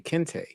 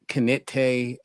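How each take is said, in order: First: The name is said with two syllables. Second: The name is said with three syllables. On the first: The speaker calls it right. "My name is so easy to say" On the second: The speaker calls it wrong. "people say"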